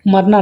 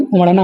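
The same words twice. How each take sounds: First: उमड़ना with a plain r, "umarna"; no flap in उमड़ना, just r; mispronunciation. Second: Said in the usual way. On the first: Shown as a demonstration. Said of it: "उमड़ना नहीं". (उमड़ना में 'ड़' की जगह 'र') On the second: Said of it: "उमड़ना होता है".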